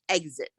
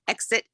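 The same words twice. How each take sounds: First: The first syllable sounds like 'egg'. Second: The first syllable does not sound like 'egg'. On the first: This is the Vermont way. "Vermont says exit" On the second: This is the usual American way. "Exit is the normal uh, American accent"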